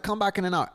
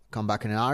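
First: Higher, offhand quote of Scott; pitched-up brush-off; quoting Scott. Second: Said in the usual way. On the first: Retold or imitated. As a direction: toss it off the way Scott said it. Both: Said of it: "He's like".

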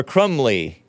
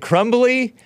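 First: "Crumley" with the b dropped, falling at the end; Crumley without the B. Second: "Crumbly" with the b sounded, rising as a question. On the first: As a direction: say "Crumley" with m running straight into l. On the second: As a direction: say "Crumbly" pronouncing the b clearly. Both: Shown as a demonstration. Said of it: "Am I pronouncing his name right? Is it".

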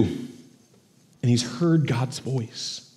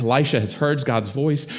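First: Slow, hushed, drawn-out "heard God's voice"; hushed emphasis. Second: Said in the usual way. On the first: Shown as a demonstration. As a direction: let "heard God's voice" sink in, very slowly and softly. Repeat slowed and hushed.

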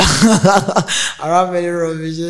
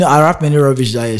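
First: I rap many rubbish drawn out slowly through a laugh; slow amused chuckling admission. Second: Said in the usual way. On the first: Real, not acted.

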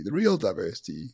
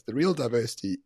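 First: "real" lifted with a questioning rise; stress on real, rising. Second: "real" hit firmly, phrase falling to a close; stress on real, falling. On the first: Setting up his point to the listeners, stress on "real" rising. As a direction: lean on "real" and let the phrase rise. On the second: Correcting himself for the audience, firm falling stress on "real". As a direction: press "real" down with finality. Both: Real, not acted.

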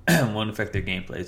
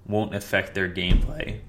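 First: Said in the usual way. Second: Voice cracking. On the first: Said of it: "Sorry, my voice cracked". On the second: Real, not acted. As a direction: voice cracks mid-phrase. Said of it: "my voice cracked".

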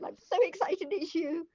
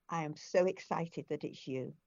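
First: Retold gush, pitched much higher; starstruck, squealing up high; excited. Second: Said in the usual way. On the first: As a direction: blurt it out, thrilled to meet the Queen. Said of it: "I just said". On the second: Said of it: "I said to her".

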